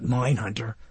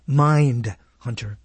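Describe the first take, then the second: First: The first part sounds like 'mine', without d. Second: The first part sounds like 'mind', with d. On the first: The speaker calls it wrong. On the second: The speaker calls it right.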